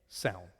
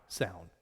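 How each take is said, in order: Both takes have the same delivery.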